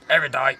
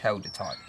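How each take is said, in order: First: The word sounds like 'Erudite'. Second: The word sounds like 'Held-a-tight'. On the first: This is how many other people say the name. The speaker calls it wrong. "he goes Erudite" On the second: This is the product's real name. The speaker calls it right. "But it's not. It's Held-A-Tight"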